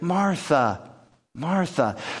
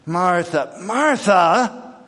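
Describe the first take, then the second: First: It is said in a calm, gentle tone. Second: It is said in a frustrated tone.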